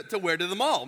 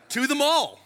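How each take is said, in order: First: Said in the usual way. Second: MALL said high and loud, falling; stressed mall. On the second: Real, not acted. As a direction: punch "mall" in disbelief. Incredulous aside about overalls.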